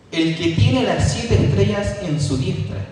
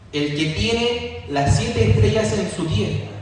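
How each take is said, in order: The two takes are said the same way.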